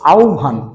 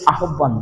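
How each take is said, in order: First: The middle is said as an o and bh. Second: The middle is said with plain h and b. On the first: The speaker calls it right. "উচ্চারণটা হবে আহ্বান" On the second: The speaker calls it wrong. "এই আহ্বান শব্দটা কিন্তু আহ্বান না"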